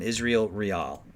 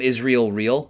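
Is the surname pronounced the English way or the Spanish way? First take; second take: Spanish; English. First: The surname is pronounced the Spanish way. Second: The surname is pronounced the English way. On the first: The speaker calls it right. "I call him Israel Real. That's how I pronounce it. He's from the Dominican, so I would go with Real" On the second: The speaker calls it wrong. "I don't call him Israel Real"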